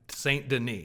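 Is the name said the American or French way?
French. The name is said with a French-style pronunciation. The speaker calls it right.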